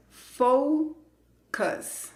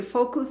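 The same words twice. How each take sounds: First: FOCUS split slowly as "FOU... cus"; long "ou" in FOCUS, then a schwa; pronunciación correcta. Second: FOCUS said quickly as "fokus", no diphthong; pronunciación incorrecta. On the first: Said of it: "No vas a decir focus". (FOCUS separado, con diptongo "ou" y schwa) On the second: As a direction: mispronounce FOCUS with plain o and u. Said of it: "No vas a decir". (FOCUS mal dicho, "fokus", sin diptongo) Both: Shown as a demonstration.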